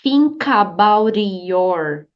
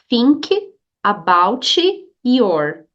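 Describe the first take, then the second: First: The words are linked, with a flapped T. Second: Each word is said separately, robot-like. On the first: The speaker calls it right. "T fica com som de R quando está do ladinho de uma palavra que começa com som de vogal" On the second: The speaker calls it wrong. "você não pode falar assim de maneira robotizada"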